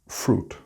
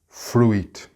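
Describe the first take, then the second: First: The U and I are not sounded separately. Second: The U and I are sounded separately. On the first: The speaker calls it right. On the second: The speaker calls it wrong.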